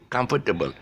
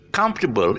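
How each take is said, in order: First: No syllable is stressed; all are said evenly. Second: The stress is on the first syllable. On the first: The speaker calls it wrong. "there's no stress on any syllable" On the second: The speaker calls it right. "this is stressing on the first syllable"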